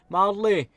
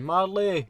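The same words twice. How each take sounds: First: Shouted name from outside, high and loud; kids shouting name. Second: Repeated loud call, high pitched; voices shouting name. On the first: Kids outside shouting up to the window, loud call. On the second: Kids calling again from outside, louder. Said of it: "Voices shouting". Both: Retold or imitated.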